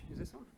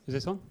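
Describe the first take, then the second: First: Faint voice off the mic; barely picked up by the mic. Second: Said in the usual way. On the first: Real, not acted.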